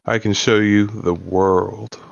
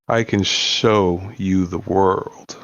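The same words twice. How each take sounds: First: The stress is on world. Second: The stress is on show.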